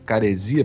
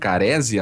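First: The stress falls on the syllable 'si'. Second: The stress falls before the syllable 'si'. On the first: The speaker calls it right. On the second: The speaker calls it wrong.

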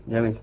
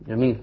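The two takes are said the same way.

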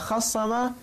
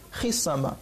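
First: The vowel after kh is a. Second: The vowel after kh is i. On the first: The vowel of the middle consonant was moved forward. "بفتح فاء الفعل" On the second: The middle consonant's vowel was dropped, not moved. "وبكسرها"

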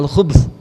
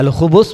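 First: No vowel follows the b sound. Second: A short u vowel follows the b sound. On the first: It refers to evil things. "di sukun" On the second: It refers to male devils. "di dhammah"

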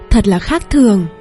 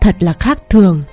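First: Said in a bright, pleased, enthusiastic voice. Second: Said in a low, sarcastic, irritated voice. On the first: The speaker is genuinely impressed. "với sự thích thú" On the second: The speaker is being sarcastic and is displeased. "hạ thấp giọng nói xuống khi nói một câu mỉa mai"

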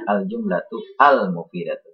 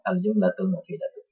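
First: Each word is read fully, with separate endings. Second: The words run together, linked without a break. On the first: "kalau terpisah bacanya" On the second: "kalau bersambung"

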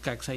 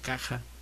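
First: The middle consonant is sounded as 'ks'. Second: The middle consonant is sounded like a Spanish 'j'. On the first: This is how people actually say it. "decimos CAXA" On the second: This would match how Jalapa is pronounced. "no decimos CAJA, que sería lo correcto"

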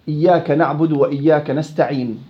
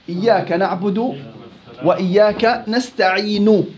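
First: The final consonant ends with no vowel at all. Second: The final consonant ends with a full short vowel. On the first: "إما السكون المحض" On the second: "هاي حركة كاملة"

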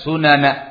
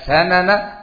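First: The first vowel is a u sound. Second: The first vowel is an a sound. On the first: The word is plural. "dibaca sunana. ... kalau sunana dikatakan jamak" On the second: The word is singular. "Dibaca sanana, ... Kalau sanana ada yang mengatakan mufrad"

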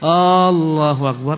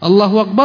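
First: The first vowel A is drawn out long. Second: The first vowel A is kept short. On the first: It asks whether God is the greatest. The speaker calls it wrong. "Menyakan huruf A, Allahu akbar tak benar" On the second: It states that God is the greatest. The speaker calls it right. "Allah Maha Besar"

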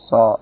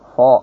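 First: The consonant has a clear hiss, lips not pushed forward. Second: The lips push forward and the hiss is lost. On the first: The speaker calls it right. "Ini tidak harus maju" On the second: The speaker calls it wrong. "harus maju bibirnya, sehingga menunjukkan fo, fo. Itu keliru"

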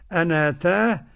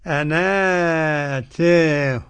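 First: The first long vowel is short, with no tilt. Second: The first long vowel is medium, the end tilted. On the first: "هناخد قصر البدل" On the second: "ونوسط البدل مع التقليل"

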